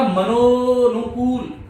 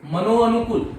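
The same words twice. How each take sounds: First: मनोनुकूल very slow, the "o" held long; joined sandhi form. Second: मनोअनुकूल with the "a" sounded after "o"; unjoined form. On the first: Teacher reveals the joined word, मनोनुकूल with long-held "o". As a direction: stretch the merged "o" in मनोनुकूल. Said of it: "इससे शब्द क्या बनेगा". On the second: Teacher shows the hidden vowel, मनोअनुकूल as "mano-anukul". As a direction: keep both vowels apart in मनोअनुकूल. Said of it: "अ हटा है यहां से". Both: Shown as a demonstration.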